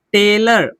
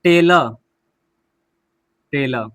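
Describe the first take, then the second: First: टेलर ending in a sounded r; r pronounced. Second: टेलर said as "tela"; silent final r. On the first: Teacher first reads the word, टेलर with final r. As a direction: say टेलर as "telar". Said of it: "हम silent ही रखेंगे". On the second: Teacher shows the silent letter, टेलर as "tela". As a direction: end टेलर on a short a, r dropped. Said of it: "आर last में है तो हम silent ही रखेंगे". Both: Shown as a demonstration.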